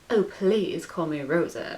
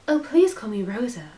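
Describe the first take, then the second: First: It is read in the posh man's character voice. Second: It is read in a young woman's character voice. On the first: The speaker calls it wrong. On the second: The speaker calls it right.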